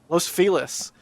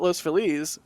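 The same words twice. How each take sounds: First: Feliz is pronounced the local Los Angeles way. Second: Feliz is pronounced the Spanish way. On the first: "L A people say Los Feliz" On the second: "I call it Los Feliz because you know Feliz Navidad"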